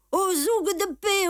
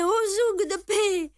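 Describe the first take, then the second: First: Put-on much higher, louder shouting old cobbler; old cobbler crying out. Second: Much higher, louder repeated call; old cobbler crying out. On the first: Old cobbler calling for the police from his shop, shrill cry. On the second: Old cobbler calling again for the police, high loud cry. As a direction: keep shrieking for the police. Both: A narrator's reading. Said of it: "Un vieux cordonnier juif criait".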